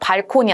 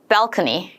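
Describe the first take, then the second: First: It is said with Korean-style syllables and sounds. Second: It is said with native English sounds and stress. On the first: The speaker calls it wrong. "발코니 아니죠" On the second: The speaker calls it right. "balcony 발음 중요하죠"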